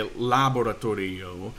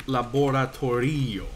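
First: "laboratorio" stressed on the first syllable, LA; misplaced stress. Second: "laboratorio" stressed on the RI; second-to-last syllable stress. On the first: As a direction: hit LA at the start of "laboratorio". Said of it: "if you totally stumble over it". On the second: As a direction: lean on the i before the final o in "laboratorio". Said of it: "second to last syllable is there". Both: Shown as a demonstration.

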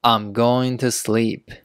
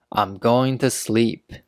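The two takes are said the same way.

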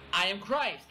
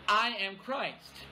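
First: "Christ" carries the weight, "I" stays light; stress on Christ. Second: "I" slow and leaned on, as the false claimant speaking of himself; stress on I. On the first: Preacher reading it as preaching that Jesus is the Christ, stress on "Christ". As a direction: land on "Christ" with a falling close. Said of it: "The second, uh, interpretation is". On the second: Preacher reading the verse as a false Christ claiming himself, stress on "I". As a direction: lean on "I", let "am Christ" fall away slowly. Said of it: "Who's the "I" there?". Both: Shown as a demonstration.

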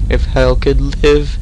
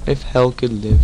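First: Live stretched and lifted; stress on live. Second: Hell stressed, level and even. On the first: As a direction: If hell could live, slow and loud on live. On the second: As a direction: If hell could live, said quickly with hell stressed. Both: Shown as a demonstration.

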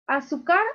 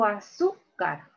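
First: "Azúcar" wrongly stressed as a-su-CAR, rising questioningly; stress on last syllable. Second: "azúcar" stressed a-SÚ-car, falling on car; stress on middle syllable. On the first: Teacher testing students with a wrong option, "Azúcar" stressed a-su-CAR. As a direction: offer "Azúcar" with the weight on final CAR. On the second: Teacher offering students the correct option, "azúcar" stressed a-SÚ-car. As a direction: lean on SÚ in "azúcar". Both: Shown as a demonstration. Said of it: "Aquí está la mayor fuerza de voz".

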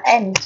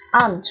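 First: "aunt" with an open front vowel, like "ant". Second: "aunt" with a long back "ah" vowel. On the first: Teacher repeating both options for students, front vowel in "aunt". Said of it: "âm E". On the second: Teacher repeating both options for students, long A in "aunt". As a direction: say "aunt" as "ahnt". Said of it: "Alpha là âm A dài". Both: Shown as a demonstration.

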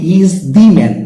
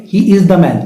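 First: "He is the man" with the as a stressed "dee"; emphatic "thee". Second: "He is the man" with the as "duh"; ordinary "thuh". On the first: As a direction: punch "the" in "He is the man" as long "dee". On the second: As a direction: keep "the" in "He is the man" an unstressed "duh". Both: Shown as a demonstration. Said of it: "এটা হবে কি".

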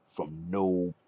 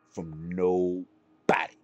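First: Said in the usual way. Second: "From nobody" dragged out slowly, each word leaned on; slow it right down to hammer "From nobody" home; slow emphatic repeat. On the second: Shown as a demonstration. Streamer insisting Cody needs no help, slow emphatic repeat.

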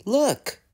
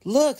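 First: High-pitched, excited exclamation. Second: High, loud burst of excitement; excited. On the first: Thomas pointing out the coming engines, excited. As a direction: cry it out high and eager. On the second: Thomas spotting engines on the line, excited. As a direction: call it out sharply, much higher. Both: A narrator's reading. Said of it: "said Thomas excitedly".

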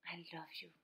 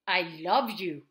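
First: Much softer and lower; soft, tender. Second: Loud, low, forceful yell; yelled, angry. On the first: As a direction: say it low and hushed. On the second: Showing that tone goes unheard, love yelled loudly. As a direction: bellow it in a low voice. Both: Shown as a demonstration. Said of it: "if you are yelling or if you're whispering".

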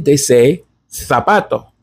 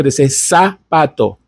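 First: Zapato with a th sound, thapato; Castilian lisp. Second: Zapato with a plain s sound, sapato; Latin American s. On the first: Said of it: "With a Z, zapato". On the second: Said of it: "as if it were written with an S". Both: Shown as a demonstration.

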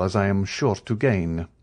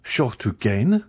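First: Said in the usual way. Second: Slow echo rising on "gain"; incredulous, drawn-out "gain?" rising at the end; amazed question. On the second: A narrator's reading. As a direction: repeat "Sure to gain" as an astonished question. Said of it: "looking with amazement at the Count".

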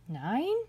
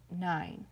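First: Nine with a steep rise at the end; puzzled upward swoop on Nine; questioning NINE. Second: Said in the usual way. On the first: A narrator's reading. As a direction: ask "Nine?" as if doubting the count. Rabbit questions the count.

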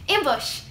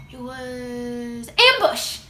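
First: Ambush snapped out higher and louder; a quick, louder Ambush with a fall; quick excited echo. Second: Ambush stretched out slow and loud; slow, loud Ambush with a falling tune; slow reveal. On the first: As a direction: repeat it with a thrill. Repeating the perfume name. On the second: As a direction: savour the name like a secret. Discovering the perfume's name. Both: Acted.

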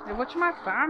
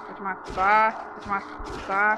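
First: "matar" shouted, falling hard at the end; shouted "Eu vou te matar". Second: "Vou te matar" dragged out slowly and lower; drawn-out mock threat, word by word; slow menace. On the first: Real, not acted. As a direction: yell "Eu vou te matar" at the ghost. Repeated threat while fighting. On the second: Repeated threat, slowed.

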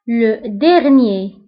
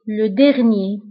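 First: Drawn-out, careful Le dernier; teacher drawing out Le dernier; slow model word. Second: Said in the usual way. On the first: Shown as a demonstration. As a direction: say Le dernier very slowly, syllable by syllable. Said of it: "teacher models the word slowly". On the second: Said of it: "teacher repeats at normal pace".

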